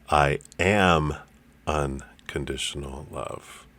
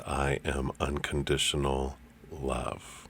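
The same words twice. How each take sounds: First: The word "am" is stressed. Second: The word "love" is stressed.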